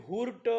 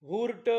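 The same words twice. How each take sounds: No difference in how they are said.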